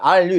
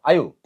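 First: "are you" with a long, full R-L in "are"; wrong full pronunciation. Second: "Are you" clipped to a quick "ah-yu"; reduced are you. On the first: Teacher shows what to avoid, over-full "are you". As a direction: draw out "are" as "aal" before "you". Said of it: "are you 이렇게 하지 말고". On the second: Teacher has students try it, reduced "are you". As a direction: blend "Are you" short, dropping the R. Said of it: "발음 분석을 하니까 해봐". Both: Shown as a demonstration.

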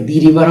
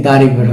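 First: দি river with দি as "dee"; "thee" option. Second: দা river with দা as open "daa"; "thuh" option. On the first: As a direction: rhyme দি with see before river. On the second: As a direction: say দা before river with no ee. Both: Shown as a demonstration. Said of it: "রিভারের আগে কী হবে".

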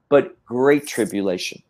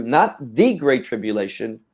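First: GREAT leads the term, no article before it; stress on GREAT. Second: THE stressed as a full "thee"; single out THE as the word being rejected. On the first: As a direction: set GREAT apart after "but" as the correction. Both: Real, not acted. Contrast: with versus without article.

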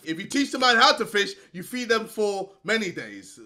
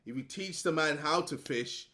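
First: If you teach the man how to fish rushed out fast; quick excited retelling of the saying. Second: Said in the usual way. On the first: Shown as a demonstration. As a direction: rattle it off in a hurry. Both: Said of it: "I'm doing the madness stuff".

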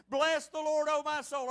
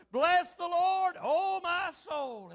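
First: Said in the usual way. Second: Higher, slow, drawn-out proclamation; leading congregational recitation. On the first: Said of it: "Everybody say with me this morning". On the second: Shown as a demonstration. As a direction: lead the room, stretching each phrase. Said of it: "All right, here we go".

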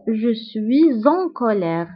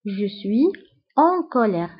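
First: "suis en" linked with a Z sound, "swee-zon"; with liaison. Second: "suis" and "en" separated, silent S, pause between; words without liaison. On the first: Teacher showing learners the link, "suis en" joined by Z. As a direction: carry a Z from "suis" into "en colère". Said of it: "دونك كنقومو بلا ليزون و كنقولو". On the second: Teacher splitting the words for learners, "suis en" without liaison. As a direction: say "suis", pause, then "en colère" with no Z. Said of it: "je suis كتنتهي ب S و en كتبدا". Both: Shown as a demonstration.

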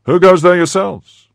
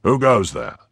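First: Loud, high shouted challenge; shouted retort. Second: Firm call, a touch raised; firm challenge. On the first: Horseman shouts back at the musketeer, loud retort. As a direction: fling the question back at full volume. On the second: Athos challenges two horsemen at night, firm. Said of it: "cried in a firm voice". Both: A narrator's reading.

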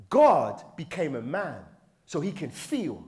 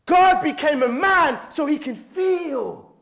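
First: Said in the usual way. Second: High, loud preacher's cry; passionate screaming. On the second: Real, not acted. Preacher driving home why God became man, screaming passionately. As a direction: belt it out with conviction. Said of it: "Why is he screaming?".

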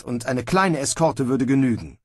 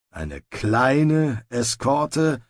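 First: Said in the usual way. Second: Slow, skeptical grumbled echo; doubtful grumble. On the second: Acted. Sergeant echoing Snibral's plan, slow doubtful grumble. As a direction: drag out the doubt over kleine. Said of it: "brummte der Feldwebel".

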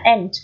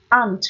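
First: "aunt" with an open front vowel, like "ant". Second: "aunt" with a long back "ah" vowel. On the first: Teacher summing up the odd word, front vowel in "aunt". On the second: Teacher summing up the odd word, long A in "aunt". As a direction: say "aunt" as "ahnt". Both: Shown as a demonstration. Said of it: "Đọc là âm A hoặc là âm E".

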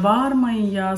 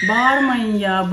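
First: Said in the usual way. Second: Slow, raised scolding; exasperated loud plea to stop shouting; scolding call. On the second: Real, not acted. Mother scolds shouting kids.

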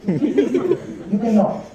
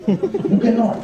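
First: "You cannot" stretched very slowly; slow, knowing "You cannot"; drawn-out. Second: Said in the usual way. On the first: Shown as a demonstration. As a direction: draw out "cannot" like a sigh of defeat.

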